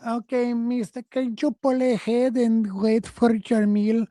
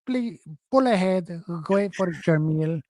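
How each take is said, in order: First: Put-on high, slow drive-thru worker voice, accented; mock drive-thru worker. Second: Lightly voiced worker, flat order; imitating a curt worker's order; curt drive-thru worker. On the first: Mocking the drive-thru worker to his co-host, high and accented. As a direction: ape the drive-thru worker asking politely. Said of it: "They'll go". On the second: Correcting his own impression of the worker, lightly accented. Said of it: "They don't even say it like that".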